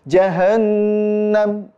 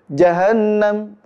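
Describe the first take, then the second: First: The nasal sound is held long. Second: The nasal sound is cut short. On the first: The speaker calls it right. "harusnya panjang" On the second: The speaker calls it wrong. "Contohnya seperti ini kalau pendek"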